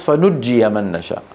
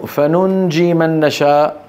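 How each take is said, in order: First: فنجي with a doubled j and final ya: fa-nujjiya; lower-pitched recitation, pressing the double jim in فنجي; Hafs reading. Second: Slow فننجي with a held hidden n before j: fa-nunji; Nafi reading. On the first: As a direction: say فنجي as fa-nujjiya, no hidden nun. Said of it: "على قراءة حفص". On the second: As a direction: linger on the nasal nun in فننجي. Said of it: "هذا على قراءة نافع". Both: Shown as a demonstration.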